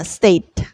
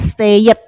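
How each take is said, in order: First: It is said with an English-style pronunciation. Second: It is said with an Indonesian-style pronunciation. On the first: The speaker calls it right. "pengucapannya secara betul dalam bahasa Inggris adalah state" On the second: The speaker calls it wrong. "Kita dalam orang Indonesia biasa menyampaikannya stayed"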